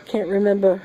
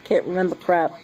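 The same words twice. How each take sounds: First: High, laughing through the words. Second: Said in the usual way. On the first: Real, not acted. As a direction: crack up mid-phrase. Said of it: "No, it's not S". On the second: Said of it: "I have C R S".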